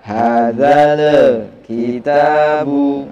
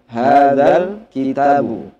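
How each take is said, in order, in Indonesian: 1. Ada vokal e tambahan setelah bunyi l. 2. Tidak ada vokal tambahan setelah bunyi l.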